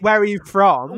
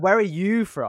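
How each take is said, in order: First: The word 'you' is not stressed. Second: The word 'you' is stressed.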